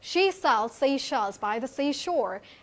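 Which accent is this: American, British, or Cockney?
British. It is spoken in a British accent. "So if we talk about British"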